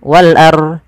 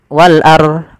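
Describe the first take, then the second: Both takes have the same delivery.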